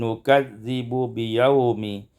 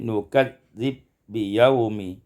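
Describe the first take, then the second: First: A vowel separates the two b sounds. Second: The two b sounds merge into one.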